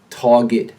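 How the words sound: The R after the first vowel is dropped. "a New Yorker drops the R"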